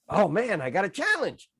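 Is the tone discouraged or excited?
excited. It sounds excited, as if welcoming an opportunity.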